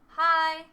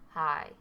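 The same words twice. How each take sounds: First: The word is said at a higher pitch. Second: The word is said at a lower pitch. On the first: "higher means in pitch" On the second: "instead of saying hi"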